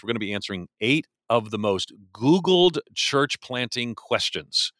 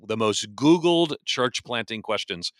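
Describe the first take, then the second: First: Said in the usual way. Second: Slower, with the word Googled stressed. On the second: Shown as a demonstration. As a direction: lean on Googled and slow the phrase down. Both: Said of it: "W-, the most Googled church planting questions".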